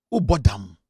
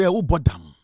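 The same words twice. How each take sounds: First: Much lower, slower, heavy with scorn; scornful repeat. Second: Scornful question. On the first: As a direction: drop the pitch and sneer "Who bought them?". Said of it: "You are faking an accent to please me". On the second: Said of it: "Me say". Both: Retold or imitated.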